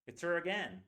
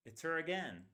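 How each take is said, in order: First: "her" as "er", run into "it's"; reduced her. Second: "her" as "er" again, stress on "again"; reduced her, repeated. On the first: Teacher modelling natural "It's her again". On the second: Teacher repeating the model sentence for students. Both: Shown as a demonstration. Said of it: "That's the way we say it".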